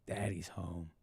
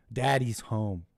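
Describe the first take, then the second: First: Much lower, much softer, deep and slow; deep hushed mock-menace; low hushed growl. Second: Said in the usual way. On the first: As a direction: purr it low like a smug boss.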